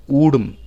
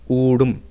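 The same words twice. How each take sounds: Both takes have the same delivery.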